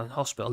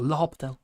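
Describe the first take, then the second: First: Said in the usual way. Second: L'Hopital said the French way, no h and the s dropped; L'Hopital with the letters left out, French style; French pronunciation. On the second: Shown as a demonstration. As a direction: say L'Hopital like a French speaker, lo-pee-tal.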